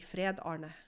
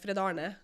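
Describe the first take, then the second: First: The name is said slowly, words kept apart. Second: The name is said quickly, run together. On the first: The speaker calls it wrong. "or else it's gonna be" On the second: The speaker calls it right. "you have to say it fast"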